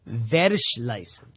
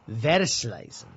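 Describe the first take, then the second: First: The opening V is said strongly. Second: The opening V is said weakly.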